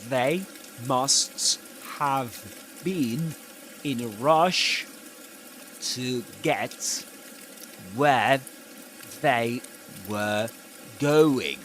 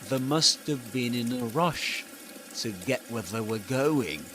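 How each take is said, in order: First: Each word is said fully and separately. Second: Words run together and "they" is reduced. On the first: "if this weren't connected speech, you would read this like this" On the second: "So this is the must have been"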